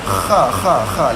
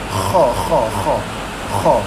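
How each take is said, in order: First: The kha sounds thin and light. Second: The kha sounds thick and heavy. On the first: The speaker calls it wrong. "kebanyakan tuan-tuan sekalian depa duk baca macam ni" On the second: The speaker calls it right. "lidah angkat naik baru tebal"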